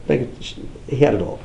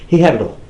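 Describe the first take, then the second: First: "He had it all" drawn out, quieter; slow and soft. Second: Said in the usual way. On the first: Shown as a demonstration. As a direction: let it sink in slowly.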